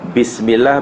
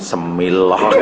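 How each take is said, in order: First: The word begins with a clear 'bis' sound. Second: The word begins with a reduced 'se' sound. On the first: The speaker calls it right. "Bismillah bukan semillah" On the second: The speaker calls it wrong. "Mana ada semillah?"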